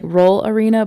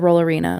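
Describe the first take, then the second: First: The two words are said separately. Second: The two words run together as one.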